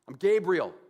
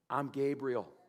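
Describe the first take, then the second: First: It is said in an insulted, indignant tone. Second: It is said in a plain, neutral tone.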